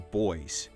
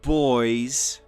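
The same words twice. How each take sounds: First: The word is said short and plain. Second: The word is drawn out over extra syllables.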